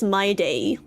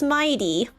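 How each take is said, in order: First: The second syllable sounds like 'day'. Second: The second syllable sounds like 'tee'. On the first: "the Korean dub is pronouncing it as my day" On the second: "no, it's mighty"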